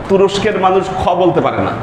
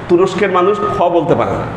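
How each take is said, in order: The two takes are said the same way.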